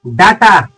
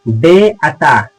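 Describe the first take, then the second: First: डाटा with a long aa first; wrong "data" pronunciation. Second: डेटा slow and low, "day" first; correct "data" pronunciation. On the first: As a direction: misread डाटा as daa-taa. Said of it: "डाटा पढ़ते हैं तो बिल्कुल गलत है". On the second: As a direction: say डेटा drawn out as day-taa. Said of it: "इसको पढ़ा जाता है मेरे भाई". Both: Shown as a demonstration.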